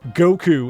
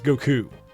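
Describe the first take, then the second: First: The second syllable is short, like the first. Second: The second syllable is held longer than the first. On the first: The speaker calls it wrong. "Goku is not how you say his name" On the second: The speaker calls it right. "The second syllable is longer than the first in his name"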